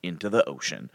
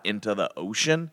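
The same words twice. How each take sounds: First: "ocean" falling, low and settled; matter-of-fact answer. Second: "ocean" rising as a question; doubtful question. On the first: God confirming the way to the people, matter-of-fact. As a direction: confirm it, letting "ocean" drop. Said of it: "It's like, yeah". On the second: People asking God where to go, doubtful question. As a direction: ask it, lifting the end of "ocean". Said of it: "Where, God?". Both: Acted.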